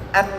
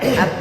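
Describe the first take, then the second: First: The sound is blocked with the nose closed. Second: The sound resonates freely through the nose. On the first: The speaker calls it wrong. "kalau hidung hidung saya saya tutup, bunyinya tidak elok" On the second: The speaker calls it right. "ada kan?"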